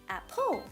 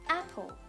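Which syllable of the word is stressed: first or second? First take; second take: second; first. First: The stress is on the second syllable. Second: The stress is on the first syllable. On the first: The speaker calls it wrong. "We don't pronounce it as apple. That's wrong" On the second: The speaker calls it right. "we stress at the first syllable and we pronounce it as apple"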